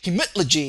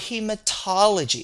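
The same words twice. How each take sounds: First: The word sounds choppy, without the linking vowel. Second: The word sounds smooth, with the linking vowel. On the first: The speaker calls it wrong. "It just kind of sounds like you're hiccuping" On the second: The speaker calls it right. "it just sounds very smooth and very nice"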